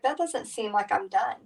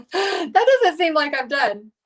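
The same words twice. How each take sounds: First: Said in the usual way. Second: Laughing through the line, higher; amused laughing repeat. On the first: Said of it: "I was like". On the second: Real, not acted. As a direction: giggle while repeating it. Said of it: "Isn't that funny?".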